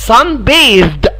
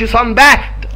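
First: The th sound is voiced, like in this. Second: The th sound is voiceless, like in bath. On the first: The speaker calls it right. "حرف التي والاتش بتنطقوا ذال" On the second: The speaker calls it wrong. "ما نطقهاش كانها اسم، يعني ما اقولش sun bathed، لا غلط"

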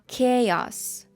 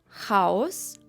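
First: The first consonant is a plain k sound. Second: The first consonant is not a k sound. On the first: The speaker calls it right. "а chaos" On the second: The speaker calls it wrong. "І також не хаос"

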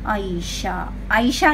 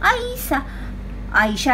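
First: The word sounds like the name Ayesha. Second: The word sounds like the plain word aisa. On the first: The speaker calls it wrong. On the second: The speaker calls it right.

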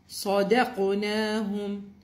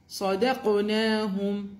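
The two takes are said the same way.

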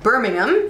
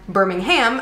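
First: The name is said the British way. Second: The name is said the American way. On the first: It names the city in the UK. "you guys have Birmingham in the UK" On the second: It names the city in Alabama. "whereas in the US, we have Birmingham, Alabama"

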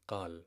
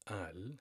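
First: The word begins with a deep q sound. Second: The word begins with a glottal stop. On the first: "they do pronounce it with a letter qaf" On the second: "So you can pronounce it with a glottal stop"

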